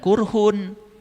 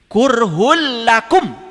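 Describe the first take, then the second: First: The word ends with a clear n sound. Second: The final n merges into the following l. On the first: The speaker calls it wrong. "awas, jangan kurhun" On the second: The speaker calls it right. "Itu idgham bilaguna. Kurhul lakum. Gitu"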